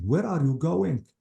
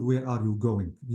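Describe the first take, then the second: First: "Where are you going" slow, pitched higher as a question; "Where are you going" with lively questioning tune; question intonation. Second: "Where are you going" slow, without questioning lift; "Where are you going" in an even, uninterested tune; not asked as question. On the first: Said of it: "You have to say it as a question". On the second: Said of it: "لما يكون عندي question ما بقول". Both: Shown as a demonstration.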